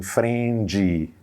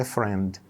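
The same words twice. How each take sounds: First: "friend" said as fren-dee, Brazilian style; extra syllable added. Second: "friend" as one English syllable, nothing after the D. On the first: Teacher mimicking learners' mistake, "friend" with an extra final syllable. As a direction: add a long "ee" after the D in "friend". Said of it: "e coloca uma sílaba a mais". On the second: Teacher showing correct English, "friend" in one syllable. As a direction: end "friend" cleanly on D, without an added vowel. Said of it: "Seis letras e uma sílaba". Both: Shown as a demonstration.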